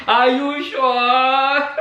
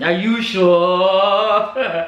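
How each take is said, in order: First: Laughing disbelief. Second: Slow, drawn-out doubtful question; skeptical. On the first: Vlogger repeating her doubt to viewers, laughing. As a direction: chuckle then ask it slowly again. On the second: Vlogger doubting a commenter's claim, slow disbelief. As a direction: drag it out in disbelief. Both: Real, not acted.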